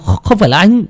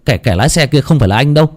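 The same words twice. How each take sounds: First: High, stammering insistence; desperate denial. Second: Quick, stammering protest; flustered denial. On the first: Framed man pleading innocence to Linh, desperate. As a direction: catch on the first word, then protest higher. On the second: Suspect pleading innocence to Linh, flustered. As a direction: stumble over the first words, hurrying to be believed. Suspect insists he was not driving. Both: Acted.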